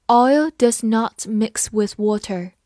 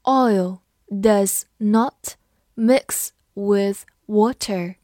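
First: Said in the usual way. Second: Very slow, one word at a time; drawn-out words, clear gaps between; slow read-along. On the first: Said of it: "慢读一遍". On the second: Shown as a demonstration. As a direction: read slowly for learners to repeat. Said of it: "跟着我慢读一遍".

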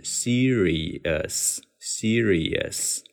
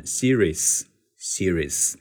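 First: Slow, careful serious with a clear short "us" ending; standard serious. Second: Series said "see-rees", skipping the O U sound; slow Series with the middle vowel left out; dropped-vowel Series. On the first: Teacher models the standard serious slowly. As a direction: spell out serious syllable by syllable, very slow. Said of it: "应该是". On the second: Teacher shows the second common reading Series. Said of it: "则把它读成". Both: Shown as a demonstration.

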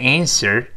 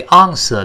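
First: "answer" with flat "a" as in cat and curled-tongue r; American pronunciation. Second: "answer" starting on a broad ah, ending r-less; British pronunciation. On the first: Teacher contrasts American "answer", cat vowel and r ending. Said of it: "美音中". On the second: Teacher contrasts British "answer", broad ah and no r. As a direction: open up "answer" into "AHN-suh". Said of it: "英式发音读成". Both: Shown as a demonstration.

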